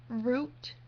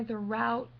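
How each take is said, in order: First: Route said like root; route rhyming with boot, rising. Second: Route said like rout, rhyming with out; route with the ow sound, rising. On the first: Accent challenge reading route as root for the highway. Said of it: "the highway is Route sixty-six". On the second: Accent challenge saying route like out for directions. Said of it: "but if you're going somewhere". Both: Shown as a demonstration.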